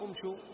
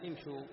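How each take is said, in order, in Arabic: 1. تبدأ الكلمة بضمة. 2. تبدأ الكلمة بكسرة. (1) "بالضم" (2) "فنبدأ بها بالكسر"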